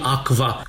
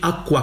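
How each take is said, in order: First: The cluster is pronounced with a v sound. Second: The cluster is pronounced with a w sound. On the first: The speaker calls it wrong. "nu putea fi quam quam și aqua, cum zicem azi" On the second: The speaker calls it right. "ci quam quam și aqua qua"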